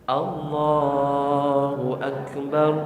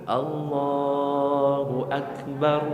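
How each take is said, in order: The two takes are said the same way.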